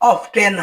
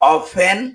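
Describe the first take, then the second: First: The t sound is pronounced in the middle. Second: The t sound is silent in the middle. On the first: The speaker calls it wrong. "হবে না" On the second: The speaker calls it right. "এর উচ্চারণ হবে"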